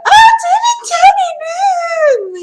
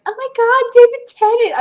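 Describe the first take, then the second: First: Shrieking high like a starstruck fangirl; fangirl scream. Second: High, breathless fan squeal; fangirl squeal. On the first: Retold or imitated. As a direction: scream his name at the screen. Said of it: "screaming that". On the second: Shown as a demonstration. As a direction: gush over the actor like a fan. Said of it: "impersonating my friends".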